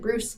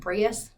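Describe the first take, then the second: First: The name sounds exactly like 'Bruce'. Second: The name does not sound like 'Bruce'. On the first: This is how the owner of the name says it. The speaker calls it right. "he pronounces it Bruce" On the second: This is how the name looks in writing. The speaker calls it wrong. "it looks like Breus"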